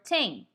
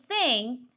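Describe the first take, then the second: First: The word begins with a t sound. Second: The word begins with a th sound. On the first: The speaker calls it wrong. "or a T" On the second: The speaker calls it right. "instead of saying thing"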